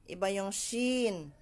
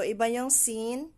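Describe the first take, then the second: First: "shin" slow, with SH and long falling EE; hushed SH in SHIN. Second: "sin" with a clear S and long EE; hissed S in SIN. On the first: Teacher contrasts two letters for students, SH in SHIN. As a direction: stretch "shin" out with a hushing SH. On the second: Teacher contrasts two letters for students, S in SIN. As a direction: set "sin" apart with a thin S hiss. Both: Shown as a demonstration.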